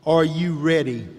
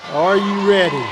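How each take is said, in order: First: Said in the usual way. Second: Rallying repeat. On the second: Shown as a demonstration. Speaker rallies the graduating class, louder call-out. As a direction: call out "Are you ready?" again to pump up the crowd.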